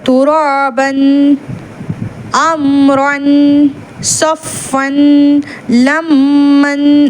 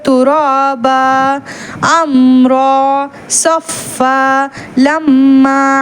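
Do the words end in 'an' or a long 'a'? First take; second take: an; long a. First: Each word ends in an 'an' sound. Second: Each word ends in a long 'a' sound. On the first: The reciter continues without stopping. "நிறுத்தலைன்னா அந்த தன்வீனை தன்வீனாக தான் உச்சரிக்கணும்" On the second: The reciter stops at these words. "வக்ஃபு செய்கிறீங்கன்னா"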